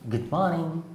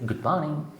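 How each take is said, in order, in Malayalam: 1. ഈ രണ്ട് വാക്കുകളും ചേർന്ന സംസാരം പോലെ ഒഴുകി പോകുന്നു. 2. ഈ രണ്ട് വാക്കുകളും ചേർന്ന സംസാരം പോലെ ഒഴുകി പോകുന്നു.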